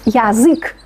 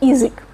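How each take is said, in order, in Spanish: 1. La primera vocal es un 'ya' completo y claro. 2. La primera vocal está reducida, más cerca de 'ee'. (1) "no pronunciamos язык" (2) "sino язык"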